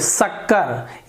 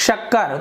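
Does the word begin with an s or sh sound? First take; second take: s; sh. First: The word begins with an s sound. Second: The word begins with an sh sound. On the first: The speaker calls it wrong. "ये गलत हो गया, जीभ को मैंने दांत के नीचे लगाया" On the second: The speaker calls it right. "यदि हम सही से बोलते हैं शक्कर तो सुनने में अच्छा लग रहा है"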